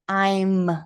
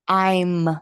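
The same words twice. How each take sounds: First: It is said as one contracted syllable. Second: The same.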